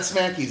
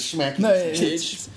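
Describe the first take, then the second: First: The name begins with a plain s sound. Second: The name begins with an sh sound. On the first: The speaker calls it wrong. "That's not Smacky's" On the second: The speaker calls it right. "it's Schmacky's"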